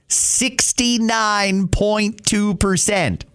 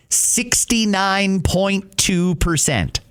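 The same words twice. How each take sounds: The two takes are said the same way.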